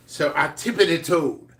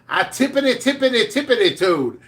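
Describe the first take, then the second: First: Said in the usual way. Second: Higher, playful sing-song on tippity; sing-song tiptoe. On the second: Retold or imitated. Sneaking up to the coworker's desk, playful high sing-song. Repeats tiptoe words for effect.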